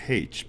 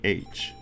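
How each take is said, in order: First: The letter name begins with an h sound. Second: The letter name begins with a vowel sound. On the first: "I like the idea of H" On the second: "but I say H"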